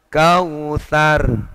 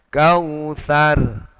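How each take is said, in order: No difference in how they are said.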